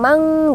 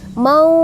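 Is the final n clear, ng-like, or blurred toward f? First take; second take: ng-like; blurred. First: The final nasal sounds like ng. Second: The final nasal is hidden, blurring toward f. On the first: The speaker calls it wrong. "ada yang mang gitu ya" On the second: The speaker calls it right. "harus membaca samar ke huruf fa"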